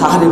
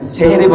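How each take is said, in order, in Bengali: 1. শব্দটি 'sa' দিয়ে শুরু। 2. শব্দটি 'se' দিয়ে শুরু। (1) "সাহারি বলবেন" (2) "সেহেরি বলবেন না"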